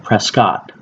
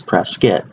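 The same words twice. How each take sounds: First: The second syllable sounds like 'Scott'. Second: The second syllable is reduced, like 'kit'. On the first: The speaker calls it wrong. "A lot of people I hear they will call it Prescott. Well, that's not the right way to say it" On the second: The speaker calls it right. "right way to pronounce it is Prescott"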